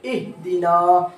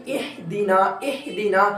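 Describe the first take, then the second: First: इहदीना slowly with the heavy throat ह; the right way to read it; correct reading. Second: इहदीना with the thin ह, quieter; what not to sound like; wrong reading. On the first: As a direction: recite इहदीना slow, heavy ह. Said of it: "ये हा वाली आवाज़ हमारी show होनी चाहिए". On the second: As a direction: show the mistaken इहदीना. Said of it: "ये वाली आवाज़ हमारी शो ना हो". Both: Shown as a demonstration.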